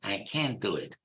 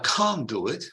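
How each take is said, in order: First: It is said in a Texan accent. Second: It is said in a southern British accent. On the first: "In Texas, they would say" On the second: "in Southern England and therefore in the received pronunciation"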